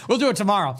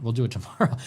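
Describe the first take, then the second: First: Laughing repeat, pitched up. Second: Said in the usual way. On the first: Real, not acted. Host laughing off skipping Iran until tomorrow. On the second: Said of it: "We're running out of time".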